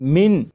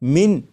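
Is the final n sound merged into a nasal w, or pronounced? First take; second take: pronounced; pronounced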